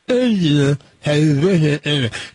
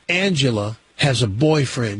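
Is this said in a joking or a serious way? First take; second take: joking; serious. First: It is said with a distorted, cheek-muffled voice. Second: It is said in a plain, normal voice. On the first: The speaker is just kidding. "But if I say it like this" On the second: The statement is meant seriously. "if I say to you"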